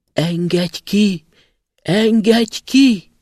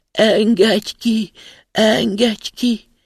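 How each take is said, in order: First: Slow, high, loud pleading cries from underground; a trapped spirit calling out to be freed, drawn out and loud; muffled trapped cry. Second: Slow, higher, loud wailing plea; plaintive muffled cry.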